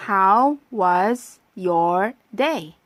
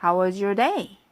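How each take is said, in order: First: Very slow, every word of How was your day stretched; slow practice read. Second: Said in the usual way. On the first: Shown as a demonstration. 학생들이 따라 하도록 천천히 읽어 주는 선생님. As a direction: spell it out slowly for learners. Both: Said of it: "자, 발음해 볼까요?".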